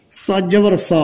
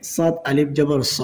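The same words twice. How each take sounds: First: Final স with a short, quick vowel. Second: Final স with a long held vowel; one-alif stretch. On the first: Teacher showing learners the quick reading, short final স. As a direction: cut the last স short. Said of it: "তাড়াতাড়ি হবে". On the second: Teacher showing learners the stretch, long final স. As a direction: draw out the last স. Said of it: "এক আলিফ টান হবে". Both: Shown as a demonstration.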